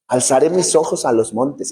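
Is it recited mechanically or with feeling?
with feeling. It is recited with heartfelt feeling.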